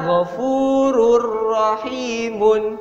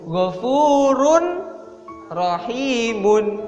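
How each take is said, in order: First: The n sound merges into a pressed r. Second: The n sound is kept before the r. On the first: "dibaca Ghafurur" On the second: "Yang awalnya sebenarnya dibacanya itu"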